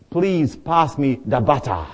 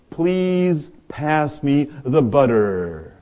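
First: It is said in a Zimbabwean accent. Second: It is said in an American accent.

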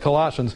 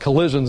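First: The word has its usual, standard pronunciation. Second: The word is bent to sound like collisions. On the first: "instead of Colossians" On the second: "I call it Colossians instead of Colossians, because Colossians is for the collisions in life"

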